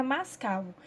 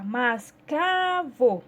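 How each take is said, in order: First: Said in the usual way. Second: "mascavo" slowly broken up, with a long, strong CA; stressed syllable stretched. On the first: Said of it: "Então, vai ficar mascavo". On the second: Shown as a demonstration. Teacher showing pupils which syllable to paint, "mascavo" with a drawn-out CA. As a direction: hold the CA in "mascavo", each syllable apart. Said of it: "a palavrinha K".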